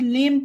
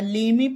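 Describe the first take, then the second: First: The word ends on the m sound. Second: The word ends with an extra vowel sound. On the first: The speaker calls it right. "इसे लेम पढ़ा जाएगा" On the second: The speaker calls it wrong. "लेमे पढ़ना गलत होगा"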